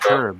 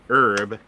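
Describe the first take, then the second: First: It is said with a British accent. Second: It is said with an American accent.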